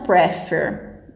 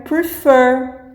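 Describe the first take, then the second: First: "prefer" with the first syllable, pre, stressed; wrong stress on PRE. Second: "prefer" with the second syllable, fer, stronger; stress on FER. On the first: Teacher showing students the mistake, "prefer" stressed on pre. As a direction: lean on the start of "prefer": PRE-fer. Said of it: "e não prefer". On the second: Teacher giving students the right way, "prefer" stressed on fer. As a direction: lean on the end of "prefer": pre-FER. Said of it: "O fer é mais forte". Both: Shown as a demonstration.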